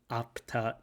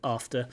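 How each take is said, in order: First: The word is said with a p sound. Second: The word is said with an f sound. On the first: The speaker calls it wrong. "It sounds like apta apta" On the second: The speaker calls it right. "instead of after"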